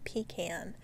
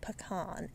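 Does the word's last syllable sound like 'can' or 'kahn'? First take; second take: can; kahn. First: The last syllable sounds like 'can'. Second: The last syllable sounds like 'kahn'. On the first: The speaker calls it wrong. "It's not pecan. We don't go to the bathroom in a can" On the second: The speaker calls it right. "we know it's pecan"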